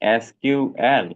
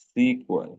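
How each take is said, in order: First: It is said as three separate letters. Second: It is said as one word, sequel. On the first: This is the current name of the language. "এসকিউএল is the correct term for the language" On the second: This is the original name of the language. "সিকুএল is the original name"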